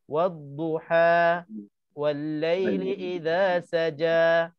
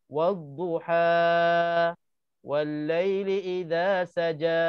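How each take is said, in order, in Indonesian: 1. Vokal pada duha hanya dibaca dua ketukan. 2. Vokal pada duha dibaca terlalu panjang. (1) "Dia kena" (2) "Itu dah lebih daripada dua rakaat"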